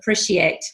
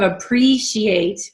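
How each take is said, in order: First: The vowel in 'pre' is a short i. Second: The vowel in 'pre' is a long ee. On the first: The speaker calls it wrong. "your long E sounds got shortened to I" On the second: The speaker calls it right. "which is a long E in pre"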